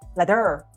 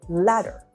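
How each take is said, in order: First: The stress is on the second syllable. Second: The stress is on the first syllable. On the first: The speaker calls it wrong. "if you move the stress to the second syllable" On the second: The speaker calls it right. "the stress is normally on the first syllable"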